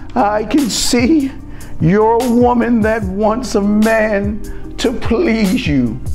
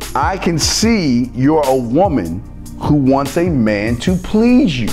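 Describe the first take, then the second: First: It is said in a theatrical, put-on voice. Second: It is said in a plain, ordinary voice.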